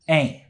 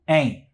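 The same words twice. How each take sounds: First: The final T sound is left off. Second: The final T sound is left off.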